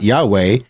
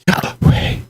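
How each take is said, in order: First: The word is spoken plainly with a normal voice. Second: First part is inhaled, second part exhaled. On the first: The speaker calls it wrong. "It's not Yahweh" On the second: The speaker calls it right. "Yah on the inhale and Hui on the exhale"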